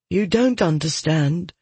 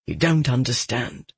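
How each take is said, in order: First: Youth's retort. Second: Low, subdued ache; anger gone, pained and lower; aching. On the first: Son answers back, higher than father. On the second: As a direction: say it low to a lost son. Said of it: "anger was replaced by an ache". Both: A narrator's reading.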